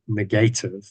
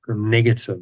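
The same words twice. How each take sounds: First: The middle syllable is a long 'gate' sound. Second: The middle syllable is a short, reduced 'guh'. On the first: "or if you want to pronounce it, negative. That makes it very clear" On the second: "they are called negative"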